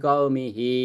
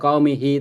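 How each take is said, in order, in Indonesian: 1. Vokal terakhirnya dipanjangkan, panjang. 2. Vokal terakhirnya pendek, tidak dipanjangkan.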